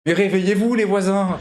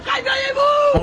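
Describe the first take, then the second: First: Said in the usual way. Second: Very high, drawn-out holler; wake-up yell. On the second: Pretend. Streamer calling out to wake the neighbours, shouting. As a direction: scream to rouse the whole building.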